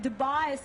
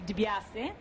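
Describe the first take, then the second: First: The name has an Australianised pronunciation. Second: The name keeps its Italian pronunciation. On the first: It was adapted to fit in with Australians. "something that's been Australianised" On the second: This is how it reads as written. "when you read it, it will be"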